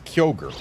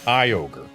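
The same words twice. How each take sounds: First: The name begins with a 'kyo' sound. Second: The name begins with a 'kai' sound. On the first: It follows the English spelling. "The way that this name should be pronounced in English, based on how it is spelled" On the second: It is the official pronunciation. "Officially Kyogre"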